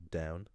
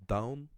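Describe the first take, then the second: First: "down" as the ordinary English word, ending in "n"; everyday English "down", at usual pitch; English pronunciation. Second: "Down" said the Irish way, loud and rising; high, careful Irish "Down", vowel rounded toward "dowm"; Irish pronunciation. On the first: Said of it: "English pronunciation written underneath". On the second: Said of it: "if I pronounce them". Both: Shown as a demonstration.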